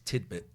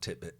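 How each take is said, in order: First: The first syllable ends with a D sound. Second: The first syllable ends with a T sound. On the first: The speaker calls it right. "It's tidbit" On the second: The speaker calls it wrong. "not titbit. You just wanted to say tit on T V"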